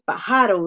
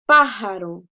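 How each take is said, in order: First: Pájaro wrongly stressed as "pa-JA-ro"; mock mistake, pájaro with a loud "JA"; misplaced stress. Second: Pájaro punched on "PÁ"; first-syllable stress. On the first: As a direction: punch the middle syllable "ja" in pájaro. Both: Shown as a demonstration. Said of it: "porque no decimos pájaro".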